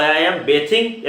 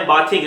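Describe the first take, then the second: First: "bathing" said bay-thing, slow and careful; correct pronunciation. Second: "bathing" said with the vowel of bath, as baa-thing; teacher showing the wrong "bathing" like baa-thing; wrong pronunciation. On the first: Teacher shows students the right "bathing" as slow bay-thing. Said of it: "ये सही है". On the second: Teacher warns students, the wrong "bathing" sounding like baa-thing. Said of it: "नहीं, गलत है". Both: Shown as a demonstration.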